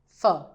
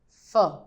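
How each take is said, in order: No difference in how they are said.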